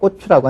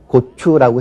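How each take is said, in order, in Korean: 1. 첫 자음은 경음이고 강하다. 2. 첫 자음은 평음이고 이완되어 있다. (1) "경음화 현상 많이 나타나죠" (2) "고추라고 해야 될 거"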